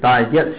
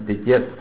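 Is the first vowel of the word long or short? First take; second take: long; short. First: The first vowel is said as a long sound. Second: The first vowel is said as a short sound. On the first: "也可以念长音 digest" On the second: "也可以念短音念 digest"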